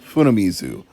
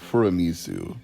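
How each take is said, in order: First: The second consonant is an n sound. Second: The second consonant is an r sound. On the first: The speaker calls it right. "Noritaka Funamizu, not Furamizu" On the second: The speaker calls it wrong. "I think I might have mispronounced one of those names"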